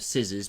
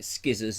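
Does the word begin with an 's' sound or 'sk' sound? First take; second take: s sound; sk sound. First: The word begins with a plain 's' sound. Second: The word begins with an 'sk' sound. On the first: The speaker calls it right. "instead of scissors" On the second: The speaker calls it wrong. "Skizzers instead of scissors"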